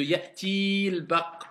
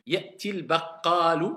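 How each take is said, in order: First: Ya'til stretched to ya'tiiil before baq; wrong lengthening. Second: Ya'til with short i, straight into baqalu; correct liaison. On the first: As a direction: drag out the ee in ya'til. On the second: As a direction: keep Ya'til short, only baqaalu long. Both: Shown as a demonstration. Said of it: "au lieu de ya'til baq".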